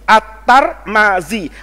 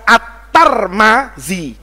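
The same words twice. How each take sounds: The two takes are said the same way.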